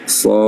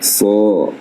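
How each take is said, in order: First: The heavy sound is released outward. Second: The heavy sound is swallowed and overdone. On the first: The speaker calls it right. "Jadi dikeluarkan bunyinya" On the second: The speaker calls it wrong. "dulu awalnya ia dibenarkan dengan cara membacanya seperti ini"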